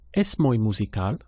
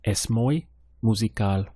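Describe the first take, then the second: First: It is said with question intonation. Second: It is said with statement intonation. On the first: It asks a question. "Now ask that same thing" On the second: It tells a fact. "How would you say, he is very musical?"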